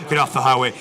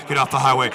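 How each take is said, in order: Both takes have the same delivery.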